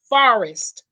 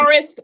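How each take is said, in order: First: It is said in a Southern US accent. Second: It is said in a neutral accent.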